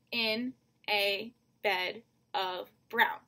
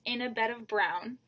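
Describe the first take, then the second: First: Slow, evenly spaced syllables in "in a bed of brown"; "in a bed of brown" at half speed, beat by beat. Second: Said in the usual way. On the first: Shown as a demonstration. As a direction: count out "in a bed of brown" with a gap after each word. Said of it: "you've got that five syllables". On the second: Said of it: "the third line is".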